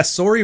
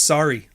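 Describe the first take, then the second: First: "sorry" as "sore-ee"; Canadian "sorry" with a rounded o; Canadian pronunciation. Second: "sorry" as "sar-ee"; American "sorry" with an open ah; American pronunciation. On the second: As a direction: say "sorry" with the vowel of car. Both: Shown as a demonstration. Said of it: "sorry versus sorry".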